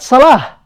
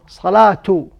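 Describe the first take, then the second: First: The word ends with an h sound. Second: The word has a t sound before the ending. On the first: The word stands alone with nothing after it. "It ends with ha" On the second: Another word follows it. "It pronounced as as a ta"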